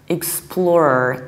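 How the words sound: It ends with an R sound. "explorer in the American accent"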